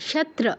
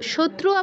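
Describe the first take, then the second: First: No 'u' vowel follows the 'tr' sound. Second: A 'u' vowel follows the 'tr' sound. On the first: The speaker calls it right. "তয় রফলার সাথে কিন্তু উকার নেই" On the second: The speaker calls it wrong. "শত্রু আবার বলতে যাব না কিন্তু"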